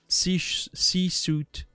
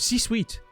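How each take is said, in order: First: The second part is not said like 'sweet'. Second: The second part is said like 'sweet'. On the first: The speaker calls it wrong. "I don't know how to pronounce this" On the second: The speaker calls it right. "Like sweet? Okay"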